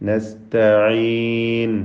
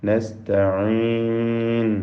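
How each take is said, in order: No difference in how they are said.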